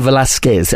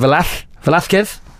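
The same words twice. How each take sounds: First: The middle consonant is a plain s sound. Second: The middle consonant is a lisped th sound.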